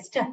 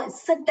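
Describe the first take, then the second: First: ST run together as one short blended sound; correct blend reading. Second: ST broken into two sounds, s then ta; wrong split reading. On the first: Teacher shows pupils how a blend is read, correct blend reading. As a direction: say ST as a single quick blend. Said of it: "st, स्व ऐसे पढ़ते हैं". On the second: Teacher shows pupils how not to read st, wrong split reading. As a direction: say ST as separate letter sounds, s-ta. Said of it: "उसको st ऐसे नहीं पढ़ते हैं". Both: Shown as a demonstration.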